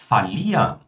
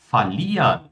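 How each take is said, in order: No difference in how they are said.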